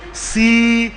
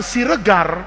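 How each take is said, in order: First: Sumatran Siregar, slow with a full, stressed E; Sumatran accent. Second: Said in the usual way. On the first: Shown as a demonstration. Teacher imitates Sumatrans saying a surname, Sumatran accent on Siregar. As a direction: stretch Siregar syllables the Sumatran way. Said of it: "Kayak orang Sumatera". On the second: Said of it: "ngomongnya kan bukan Siregar".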